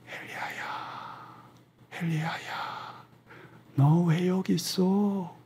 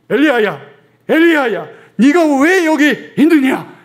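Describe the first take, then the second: First: It is said softly and gently. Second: It is said loudly and forcefully.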